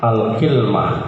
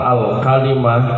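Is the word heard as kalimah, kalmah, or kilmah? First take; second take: kilmah; kalimah. First: It has an i after k and no vowel after l. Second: It has an a after k and i after l. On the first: It is a reading of the Tamim tribe. "kafnya dikasal, lamnya disukun" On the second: It is the Hijazi reading. "kafnya di fathah, lamnya di kasrah"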